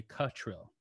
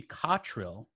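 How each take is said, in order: First: "Cottrill" said the way people mistakenly say it; "Cottrill" as the uncorrected variant, starting like "cut"; common mispronunciation. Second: "Cottrill" said the way the name is supposed to be; "Cottrill" with an open "cot" at the start; correct name pronunciation. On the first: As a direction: say "Cottrill" with a shorter "cut"-like first vowel. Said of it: "you don't correct people when they say". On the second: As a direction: say "Cottrill" as the proper form, with an open first vowel. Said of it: "supposed to be Cottrill". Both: Shown as a demonstration.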